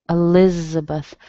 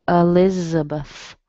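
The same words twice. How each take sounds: Both takes have the same delivery.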